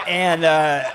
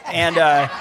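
The two takes are said the same way.

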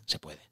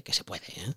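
First: Whispered. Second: Said in the usual way. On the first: Shown as a demonstration. An author whispering encouragement to the listeners. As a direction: repeat it in a soft whisper.

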